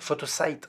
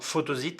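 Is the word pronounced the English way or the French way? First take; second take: English; French. First: The word is pronounced with English sounds. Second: The word is pronounced with French sounds. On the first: "photosite en anglais" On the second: "je dis photosite parce que je parle français"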